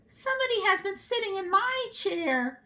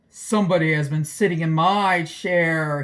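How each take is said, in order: First: It is said in a middle-sized voice. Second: It is said in a great big voice.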